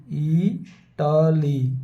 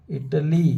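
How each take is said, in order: First: इटाली dragged out, every syllable held long; very slowly drawn out. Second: Said in the usual way. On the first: Shown as a demonstration. Teacher repeating the word for students, very slowly. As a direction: stretch इटाली out for students to hear each sound. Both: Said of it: "इसी तरह इटली".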